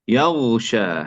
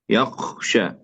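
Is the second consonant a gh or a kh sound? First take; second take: gh; kh. First: The gh is pronounced as a gh sound. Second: The gh is pronounced as a kh sound. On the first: The speaker calls it right. "هكذا" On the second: The speaker calls it wrong. "جعل الغين خاء"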